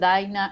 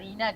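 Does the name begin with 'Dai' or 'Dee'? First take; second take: Dai; Dee. First: The first vowel is said as 'ai'. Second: The first vowel is said as 'ee'. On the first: This is how the name is really said. The speaker calls it right. "en realidad me dicen Daina" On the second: This is how others usually say the name. The speaker calls it wrong. "es tan distinta la pronunciación Daina a Dina"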